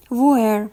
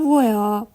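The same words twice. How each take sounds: First: ویر said slowly with the r sounded at the end; pronounced with final r. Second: ویا said slowly, ending in an open "a" sound, no r; final r as "a". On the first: Teacher shows learners one of two pronunciations, ویر with final r. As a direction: draw out ویر, ending on an audible r. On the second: Teacher shows learners the more correct pronunciation, ویا ending in open "a". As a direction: draw out ویا with a vowel ending. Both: Shown as a demonstration.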